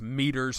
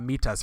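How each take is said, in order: First: It is said in the speaker's plain accent. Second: It is said with a Kenyan accent.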